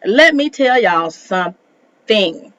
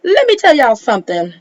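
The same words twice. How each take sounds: First: Slow, word-by-word emphasis; slow emphatic warning. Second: Quick, higher-pitched attention grab; quick emphatic warning. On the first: Host about to set viewers straight, slowly and deliberately. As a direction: stretch it out, pausing before the end. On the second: Host about to set viewers straight, quick and emphatic. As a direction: fire it off fast and high. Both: Real, not acted.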